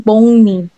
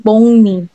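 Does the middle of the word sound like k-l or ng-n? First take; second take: ng-n; ng-n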